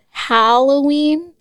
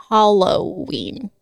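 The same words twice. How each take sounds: First: Halloween with a short flat "a", as in Hal; first syllable like Hal. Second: Halloween with an open "ah", as in Hollow-ween; first syllable like Hall. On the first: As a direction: say Halloween starting with "Hal", not "Hall". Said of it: "don't say Hall. I say Hal". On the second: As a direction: say Halloween starting with "Hall", not "Hal". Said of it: "I always said Halloween". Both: Shown as a demonstration.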